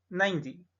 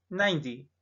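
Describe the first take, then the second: The two takes are said the same way.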